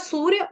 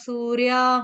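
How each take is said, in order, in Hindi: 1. यह शब्द बिना दीर्घ अंतिम स्वर के समाप्त होता है। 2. यह शब्द दीर्घ 'a' स्वर के साथ समाप्त होता है। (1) "वो था सूर्य" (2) "आपने बोला सूर्या सूर्या"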